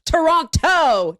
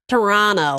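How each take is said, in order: First: The second T sound is clearly pronounced. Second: The second T sound is dropped. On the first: "There's two frickin' T's in there. I'm saying them. Both" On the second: "the Toronto people say you're not supposed to say the second T"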